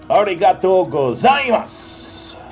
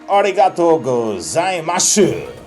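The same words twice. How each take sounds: First: It has a Kanto accent, stressing the Z. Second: It has an Osaka accent, without the Z stress.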